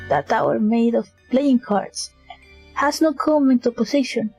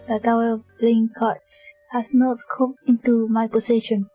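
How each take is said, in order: First: It is read with lots of feeling. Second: It is read in a flat, monotonous voice. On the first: The speaker calls it wrong. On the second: The speaker calls it right.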